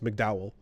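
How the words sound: The name is said with English pronunciation. "pronounced correctly as McDowell"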